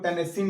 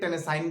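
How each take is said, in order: First: The last syllable is said with a short 'i'. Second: The last syllable is said with an 'ai' sound. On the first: "इसको टेनेसिन ना बोल करके" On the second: "टेनेसाइन भी बोला जाता है"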